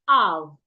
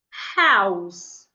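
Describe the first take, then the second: First: The word begins without an h sound. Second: The word begins with an h sound. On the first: The speaker calls it wrong. "You hear them say house, ow. That is wrong" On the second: The speaker calls it right. "the H must be pronounced"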